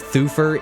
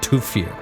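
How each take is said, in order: First: The name begins with a soft 'th' sound. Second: The name begins with a hard 't' sound. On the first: This is how the film says it. The speaker calls it wrong. "They also call him Thufir in this movie" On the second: This is the proper pronunciation. The speaker calls it right. "it's pronounced Tufir. Sometimes T H just makes the T sound"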